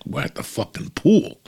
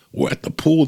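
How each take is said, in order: First: Higher, excited call over the phone; the wife shouting happily from the pool; mock excited shout. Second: Higher and louder, calling over pool noise; excited wife repeating herself louder. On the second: Retold or imitated.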